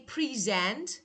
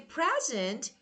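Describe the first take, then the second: First: The stress is on the second syllable. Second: The stress is on the first syllable. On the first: It is the verb meaning to show or give. "that is verb" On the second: It is the noun meaning a gift. "that is noun"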